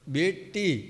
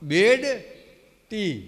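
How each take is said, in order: First: The words are run together into one word. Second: The two words are kept clearly apart. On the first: The speaker calls it wrong. "બેટી નહીં, એ બેટી તો ભેગું છે શબ્દ" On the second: The speaker calls it right. "અલગ પાડો. બેડ ટી"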